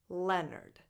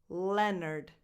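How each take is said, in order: The two takes are said the same way.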